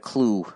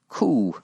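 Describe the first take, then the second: First: The word starts with a 'cl' sound. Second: The word starts with a plain 'k' sound. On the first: The speaker calls it wrong. "not the Clue" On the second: The speaker calls it right. "it's the Ku Klux Klan"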